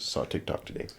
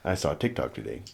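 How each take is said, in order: First: Whispered softly, as a joking afterthought; whispered aside. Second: Said in the usual way. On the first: Real, not acted. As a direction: drop to a whisper for the repeat. Repeats line as whispered aside.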